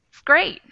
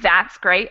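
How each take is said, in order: First: Only a short ts sound remains before great. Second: The word that's is said in full. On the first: "it could just get cut off into the T S" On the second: "instead of saying that's great"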